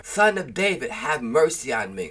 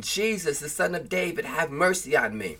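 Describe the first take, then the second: First: More insistent outcry. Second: Lightly raised scripture plea, no shouting; pleading outcry. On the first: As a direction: pitch lifted at the start, firmer plea. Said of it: "he cried out all the more". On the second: Blind Bartimaeus to Jesus, restrained pleading outcry. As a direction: read it as a restrained call for mercy. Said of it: "he began to cry out". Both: A narrator's reading.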